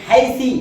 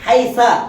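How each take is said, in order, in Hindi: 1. इस शब्द का अंत छोटे i स्वर से होता है। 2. इस शब्द का अंत छोटे a स्वर से होता है। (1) "कहीं जेर" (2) "कहीं जबर"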